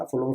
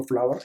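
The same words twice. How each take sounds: First: فلور said as one syllable, flor; فلور sounded like floor, single vowel; wrong pronunciation. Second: فلاور said in two syllables, fla-wer; فلاور with the wer ending spoken clearly; correct pronunciation. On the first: Teacher showing student the wrong فلور, flor. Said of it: "spelling یاد ہونا چاہیے". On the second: Teacher showing student the right فلاور, fla-wer. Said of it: "فلور نہیں، فلاور ہے اس کا پروننسیئیشن". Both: Shown as a demonstration.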